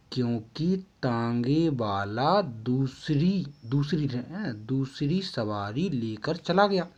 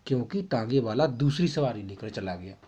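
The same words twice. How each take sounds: First: Slow, word by word for note-taking; spelled out slowly for copying; slow dictation. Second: Said in the usual way. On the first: Shown as a demonstration. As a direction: dictate it slowly so students can write. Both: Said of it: "आपको ये लिखना है".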